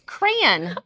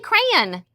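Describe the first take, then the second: First: The word is said with two syllables. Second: The word is squeezed into one syllable. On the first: "I make it two syllables" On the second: "I don't say crayon"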